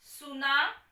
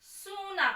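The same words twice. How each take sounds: First: सुना with a quick short u; short vowel in a teaching pair. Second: सूना with a long stressed oo, a little higher; long vowel in a teaching pair. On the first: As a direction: say सुना briskly, the u clipped short. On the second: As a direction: draw out the oo in सूना. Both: Shown as a demonstration. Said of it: "अंतर है".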